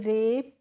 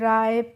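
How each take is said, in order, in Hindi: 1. स्वर साफ़ 'eh' है। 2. स्वर 'eye' जैसा फिसलता है। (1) "इस तरीके से हम इनको पढ़ेंगे" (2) "इस तरीके से नहीं प्रोनाउंस करना है"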